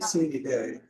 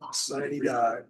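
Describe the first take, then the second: First: The last word ends with an 'ay' sound. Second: The last word ends with an 'eye' sound. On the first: This is a common informal pronunciation. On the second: This is the official pronunciation.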